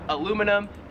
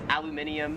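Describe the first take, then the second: First: The word is said the American way. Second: The word is said the Australian way. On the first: "We would call it in America" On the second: "Here in Australia, it is"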